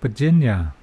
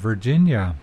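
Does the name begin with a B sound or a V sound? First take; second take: B; V. First: The name begins with a B sound. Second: The name begins with a V sound. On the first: "there's no V and no R" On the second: "my mother's name"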